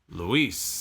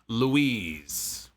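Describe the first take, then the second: First: The name is pronounced as Luis. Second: The name is pronounced as Louise. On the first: The speaker calls it right. "let me enunciate so everybody knows. It is Luis" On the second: The speaker calls it wrong. "It is not Louise"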